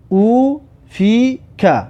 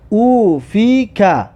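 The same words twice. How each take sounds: First: Slow, with clear gaps between syllables; syllable-by-syllable reading. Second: Slow syllables with long held vowels; drawn-out reading. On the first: Teacher repeats the sentence for learners, slowly split into syllables. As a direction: separate "او فی که" into three held syllables. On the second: Teacher models reading a sentence for learners, slow and drawn out. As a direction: stretch "او فی که" slowly, syllable by syllable. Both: Shown as a demonstration. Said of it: "این جمله را بخوان".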